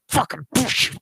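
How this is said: It is said tightly through gritted teeth.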